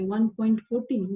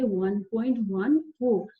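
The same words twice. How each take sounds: First: "वन point फ़ोर्टीन" read as a whole number after the point, like a mistaken student; wrong reading. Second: "वन point वन फ़ोर" with each digit after the point said separately, slowly; correct digit reading. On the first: Teacher showing students the wrong way to read the decimal. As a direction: say "फ़ोर्टीन" as one number, a questioning wrong guess. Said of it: "इसको ऐसे नहीं पढ़ते हैं". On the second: Teacher showing students the correct way to read the decimal. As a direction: spell out "वन फ़ोर" digit by digit, slow and clear. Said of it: "इसको क्या पढ़ेंगे?".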